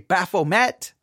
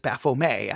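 First: The name is pronounced in an American way. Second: The name is pronounced in a French way. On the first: The speaker calls it wrong. "Many in America would say Baphomet" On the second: The speaker calls it right. "I think it's actually French and it's Baphomet, I think is how you actually pronounce it"

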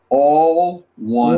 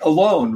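First: It is split into two separate words. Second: It is said as one joined word. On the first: It means everyone is united together. "We pronounce it a different way" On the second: It means being by oneself. "It looks like alone"

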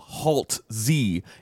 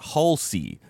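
First: The name rhymes with waltz. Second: The name does not rhyme with waltz. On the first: The speaker calls it right. "Halse rhymes with waltz" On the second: The speaker calls it wrong. "not Halsey"

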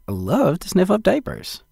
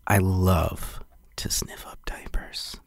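First: It sounds sincerely enthusiastic, not sleazy. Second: It sounds sleazy and oversold.

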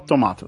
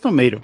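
First: It is said in a non-American way. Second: It is said the usual American way.

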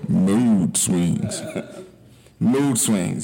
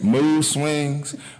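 First: It is said in a put-on DJ voice. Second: It is said in the speaker's normal voice.

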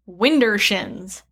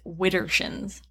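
First: The first syllable has an n sound: 'win'. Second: The first syllable has no n sound: 'wid'. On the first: The speaker calls it wrong. "I mispronounced it" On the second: The speaker calls it right. "It's widdershins"

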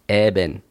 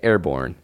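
First: It is said in an Australian accent. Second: It is said without an Australian accent.

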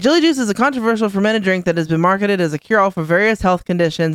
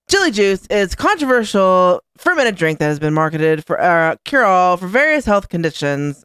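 First: It is said in the speaker's normal voice. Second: It is said in an imitation of Jillian.

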